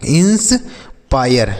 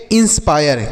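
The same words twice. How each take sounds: First: "inspire" drawn out in two parts, ins... pire; slow demonstration. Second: Said in the usual way. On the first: Shown as a demonstration. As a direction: break "inspire" after 'ins', very slowly. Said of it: "क्या पढ़ेंगे बच्चों?". ("Inspire" धीरे-धीरे, तोड़कर) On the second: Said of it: "तो इसे हम पढ़ेंगे".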